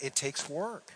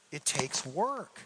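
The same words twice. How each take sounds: First: Said in the usual way. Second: "It takes work." slowed right down, leaning on "work"; slow emphatic repeat. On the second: Real, not acted. Pastor repeats it to the congregation, slow and weighty. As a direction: drag out every word and land on "work".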